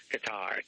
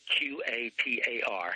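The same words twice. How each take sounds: First: Qatar said as kuh-TAR, stress on the second syllable, falling; unsure pronunciation. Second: Q A T A R spelled letter by letter, slowly. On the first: Host unsure how to say the country: Qatar as kuh-TAR. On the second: Host spells the name for listeners: Q A T A R letter by letter. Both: Shown as a demonstration. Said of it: "however you pronounce it".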